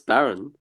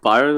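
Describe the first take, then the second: First: The first vowel sounds like 'bare'. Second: The first vowel sounds like 'bye'. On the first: The speaker calls it right. "it's Baron" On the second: The speaker calls it wrong. "His name isn't Byron"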